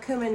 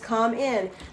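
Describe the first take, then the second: First: The first syllable sounds like 'cue'. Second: The first syllable sounds like 'come'. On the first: The pronunciation commonly used now. "people call it cumin now" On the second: The original, supposedly proper pronunciation. "C O M E space I N is how you're supposed to pronounce it"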